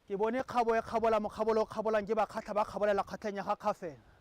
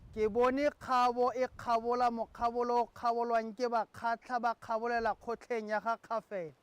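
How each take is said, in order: First: It is said at a fast pace. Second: It is said at a slow pace.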